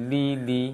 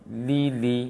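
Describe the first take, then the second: Both takes have the same delivery.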